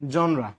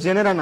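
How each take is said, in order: First: The word is said with two syllables. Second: The word is said with three full syllables. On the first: The speaker calls it right. "উচ্চারণটা কি জনরা" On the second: The speaker calls it wrong. "উচ্চারণটা কিন্তু জেনেরা না"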